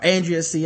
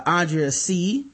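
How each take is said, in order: First: Andrea C said as AN-dree-uh C; corrected name. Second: Andrea C said as AHN-dree-uh C; first-guess name. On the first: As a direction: Andrea C with the flat A opening. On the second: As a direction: Andrea C with the broad AH opening. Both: Shown as a demonstration. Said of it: "I'm sorry, probably Andrea".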